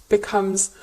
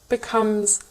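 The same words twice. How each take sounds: Both takes have the same delivery.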